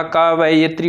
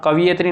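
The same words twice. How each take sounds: First: कवयित्री said "ka-va-yi-tri"; correct form shown. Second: कवयित्री said "ka-vi-ye-tri"; wrong form shown. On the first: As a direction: open the middle of कवयित्री to "va-yi". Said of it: "कवयित्री होता है". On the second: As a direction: say कवयित्री with "vi" in the middle. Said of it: "कवयित्री नहीं होता". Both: Shown as a demonstration.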